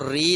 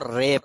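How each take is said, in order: First: The r is followed by an 'ee' vowel. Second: The r is followed by an 'ay' vowel. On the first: The speaker calls it wrong. "री नहीं पढ़ना" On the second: The speaker calls it right. "आपको रे पढ़ना है"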